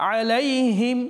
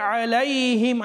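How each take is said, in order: No difference in how they are said.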